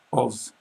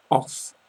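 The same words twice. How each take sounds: First: Of ending in a voiced v sound. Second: Off with a long hissed f at the end. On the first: Teacher showing how of is pronounced, clearly. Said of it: "I would write O V". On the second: Teacher showing the double f, clearly. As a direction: let the f ring out in off. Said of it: "you can really hear the double F there". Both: Shown as a demonstration.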